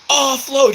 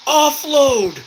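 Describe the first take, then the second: First: Repeated high urgent yell; man down shout. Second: High urgent yell; man down shout. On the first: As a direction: shout it again to the squad. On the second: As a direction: call it out to the squad. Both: Real, not acted. Calling teammate to unload wounded.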